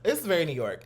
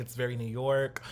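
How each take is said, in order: First: Louder fake New York accent. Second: Light fake New York accent; a hint of a New York accent. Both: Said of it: "my little fake New York accent".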